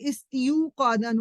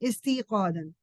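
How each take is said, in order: First: A 'yu' glide follows 'isti' before 'qadan'. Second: A long 'ee' follows 'ist' before 'qadan'. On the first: The speaker calls it wrong. "अगर वाव रहने देते तो इस्तियू कादन होता, यू यू की आवाज ठीक नहीं लगती" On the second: The speaker calls it right. "They change it"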